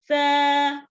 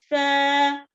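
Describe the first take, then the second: No difference in how they are said.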